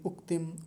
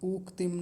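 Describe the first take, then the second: First: The first vowel is short and said quickly. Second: The first vowel is drawn out long. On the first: The speaker calls it right. "छोटा ऊ है, जल्दी बोलेंगे" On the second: The speaker calls it wrong. "उक्तिम नहीं"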